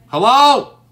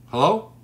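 First: Shouting hello into the silent stream, much louder and higher; loud call. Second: Said in the usual way. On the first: Real, not acted. Streamer yelling hello to viewers who went silent, loud call. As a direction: call out hard to find the missing viewers.

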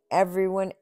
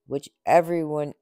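First: Everyone pitched higher. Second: Everyone stressed and louder. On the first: Onceler repeating everyone, rising, to the Lorax. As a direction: lift everyone up. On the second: Onceler insisting to the Lorax, stressing everyone. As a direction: lean into the word everyone. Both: A narrator's reading.

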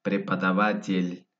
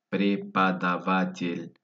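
First: Said in the usual way. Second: Slow, drawn-out model pronunciation; slowed-down word. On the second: Shown as a demonstration. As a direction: stretch the word out for learners. Word repeated slowly by syllables.

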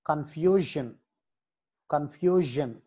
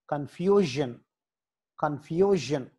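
Both takes have the same delivery.

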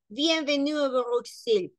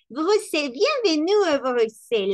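First: "Bienvenue a Bruxelles" said level and serious; more serious. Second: "bienvenue a Bruxelles" bright and louder; cheerful welcome. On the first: Teacher contrasting a serious welcome with a cheerful one. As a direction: deliver it soberly. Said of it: "Es más serio". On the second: Teacher mimicking an enthusiastic greeting to students. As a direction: welcome them eagerly. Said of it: "está como". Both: Shown as a demonstration.

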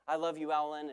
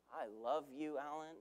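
First: Said in the usual way. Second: Soft, tender, fading almost to nothing. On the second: Shown as a demonstration. Preacher showing how tone changes the message, said softly. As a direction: breathe it gently like a real confession. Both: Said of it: "Same words, different message".

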